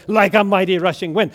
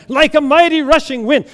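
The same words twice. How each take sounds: First: Loud, quick response; fired-up worshipper. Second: High, loud, ecstatic cry; fired-up worshipper. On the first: Woman in front row answering the pastor, stirred up. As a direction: call it back to the preacher. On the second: Woman in front row answering the pastor, carried away. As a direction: call it out at full fervor. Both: Acted. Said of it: "she's getting all fired up for Jesus".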